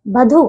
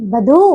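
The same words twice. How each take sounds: First: बधु in its faulty form, set up for correction; mispronunciation. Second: बधु with a drawn-out final "oo"; correct pronunciation. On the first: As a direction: say बधु as the wrong take. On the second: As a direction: stretch the end of बधु. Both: Shown as a demonstration. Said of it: "बधु नहीं".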